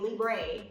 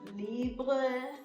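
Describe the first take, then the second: First: It is said with an American pronunciation. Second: It is said with a French pronunciation.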